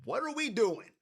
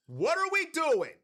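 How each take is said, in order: First: Said in the usual way. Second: High, emphatic disbelief; exasperated outcry. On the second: Real, not acted. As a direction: throw the question up high in exasperation. Repeats question in exasperation.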